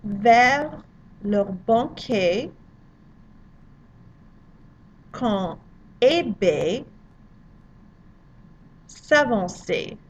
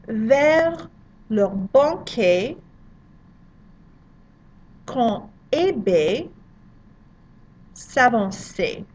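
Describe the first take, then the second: First: "Vers leur banquet, quand Eh Bé s'avançait" chopped into pieces with long pauses; slow French drill. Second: "Vers leur banquet, quand Eh Bé s'avançait" with a throaty R, slow; slow French model reading. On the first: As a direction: drill word by word, leaving gaps to repeat. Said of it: "pronounce it after me". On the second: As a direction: model the line slowly for students. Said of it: "The second line". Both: Shown as a demonstration.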